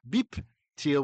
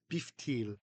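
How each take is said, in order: First: A hard p sound comes before teal. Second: A soft f sound comes before teal. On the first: The speaker calls it wrong. "instead of beep teal" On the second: The speaker calls it right. "we say beef teal"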